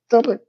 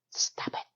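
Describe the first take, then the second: First: Said in the usual way. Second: Whispered stop it; whispered plea. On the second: Retold or imitated. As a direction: breathe stop it as a secret plea. Narrator pleads, whispered.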